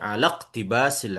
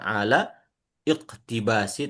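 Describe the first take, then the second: First: The glottal stop before iqtibas is dropped. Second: The glottal stop before iqtibas is pronounced. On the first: The speaker calls it right. "tapi membaca ala iqtibasil ilmi" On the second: The speaker calls it wrong. "kita tidak membaca ala iqtibasi"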